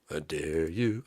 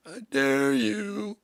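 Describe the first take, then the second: First: Low, soft dare; low menacing dare. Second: High, slow, stretched-out taunt; taunting dare. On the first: Singer challenging his band, low taunt. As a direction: drop the voice and dare them quietly. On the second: Singer challenging his band, taunting. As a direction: dare them in a drawn-out high voice. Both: Acted.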